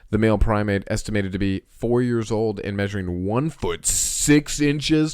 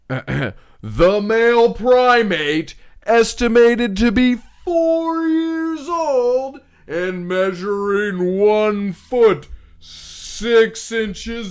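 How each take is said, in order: First: It is read in a plain, ordinary voice. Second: It is read in a big announcer voice.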